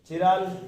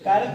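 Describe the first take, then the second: First: It begins with a ch sound, 'chi-raal'. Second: It begins with a k sound, 'kai-ral'. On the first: This is the Hindi form of the term. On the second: This is the English form of the term.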